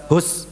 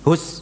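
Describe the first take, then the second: Both takes have the same delivery.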